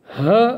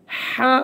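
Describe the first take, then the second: First: "ह" with an h from the start of the throat; throat-onset articulation. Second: "हा" with the h made in the middle of the throat; mid-throat articulation. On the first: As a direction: let the h of "ह" come from the throat's first point. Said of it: "और ये इब्तदाई हलक से है". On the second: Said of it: "ये हलक दरमियाने हलक से है". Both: Shown as a demonstration.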